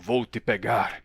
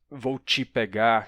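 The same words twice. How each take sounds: First: The t in 'te' is a plain t sound. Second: The t in 'te' is a ch sound. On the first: It is an older, less common way of speaking. "entre os dubladores de mais idade, às vezes a gente escuta algo como" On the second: It is the usual way of speaking. "em vez de"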